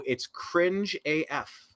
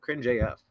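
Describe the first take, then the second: First: "cringe A F" said slowly, each word leaned on; drawn out cringe. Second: Said in the usual way. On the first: Shown as a demonstration. Host judging a politician's pandering video, slow stressed "cringe A F". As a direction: stretch out "cringe A F" slowly for emphasis. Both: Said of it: "I said cringe A F".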